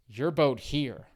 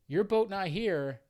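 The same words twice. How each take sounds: First: Put-on slow, louder Vietnamese accent pointing it out; imitated Vietnamese accent. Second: Put-on high, loud broken-English Vietnamese accent; imitated Vietnamese accent. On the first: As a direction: drag out the driver's Vietnamese accent, slower and louder. Driver pointing to other boat. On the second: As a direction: put on the driver's Vietnamese accent, louder and higher.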